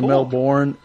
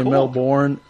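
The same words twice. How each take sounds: First: The word is said the American way. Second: The same.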